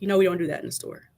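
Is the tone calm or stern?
calm. It is said calmly and more quietly.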